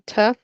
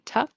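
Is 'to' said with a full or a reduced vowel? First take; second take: full; reduced. First: The word has a full, clear vowel. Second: The word has a weak, reduced vowel. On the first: It sounds careful and fancy. "if you want to be fancy, you can say to" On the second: It is the usual everyday form. "Usually in connected speech, ... they'll say to"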